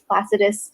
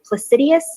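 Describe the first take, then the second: First: No extra 'ee' sound comes before the last syllable. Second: An extra 'ee' sound comes before the last syllable. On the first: The speaker calls it right. "I'm pretty sure it's Placidus" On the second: The speaker calls it wrong. "Some people pronounce, pronounce it Placidius. Um, I don't know where the extra I's are coming from"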